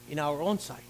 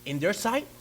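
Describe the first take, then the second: First: Correcting the crowd, stressing own. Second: Quizzing the room with a rise on sight; preacher quizzing his congregation; questioning. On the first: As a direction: own pressed with a low falling close, much lower and softer. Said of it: "Not their sight, but our own sight". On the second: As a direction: ask the crowd, lifting sight. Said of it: "Come on, talk to me". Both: Shown as a demonstration.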